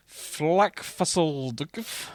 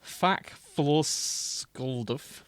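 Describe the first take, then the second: First: "Flackfusseldgf" said very slowly, with a wrong L after the F; drawn-out "Flackfusseldgf", sounding out a stray L; wrong pronunciation. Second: "Fackfloskuldf" said very slowly with no L after the F; carefully sounding out "Fackfloskuldf" without the L; corrected pronunciation. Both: Shown as a demonstration. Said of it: "Sorry, no, there isn't an L".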